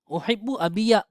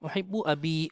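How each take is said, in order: First: The last word ends with an added 'ya' sound. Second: The last word ends on a long 'ee' sound. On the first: The speaker calls it wrong. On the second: The speaker calls it right.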